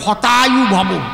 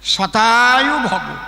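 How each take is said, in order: First: The first word begins with an h sound. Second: The first word begins with an sh sound. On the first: May your life be destroyed. The speaker calls it wrong. "ওনার তো সব উচ্চারণ হয় না" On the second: May you live a hundred years. The speaker calls it right. "ওর সংস্কৃত হলো শতায়ু ভব"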